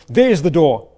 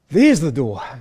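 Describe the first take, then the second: First: It is said with an angry tone. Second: It is said with a relieved tone. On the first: The listener is being told to leave. "arguing and angry with someone" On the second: The way out has finally been found. "and relief"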